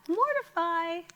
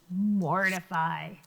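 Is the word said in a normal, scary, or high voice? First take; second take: high; normal. First: It is said in a high voice. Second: It is said in a normal voice.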